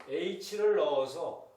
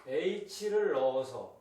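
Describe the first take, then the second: The two takes are said the same way.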